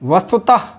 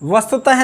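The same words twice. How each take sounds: First: The word ends in a soft breathy release. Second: The word ends in a full 'ha' sound. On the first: The speaker calls it right. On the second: The speaker calls it wrong.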